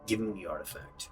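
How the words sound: It is said in Musgrave's gravelly voice.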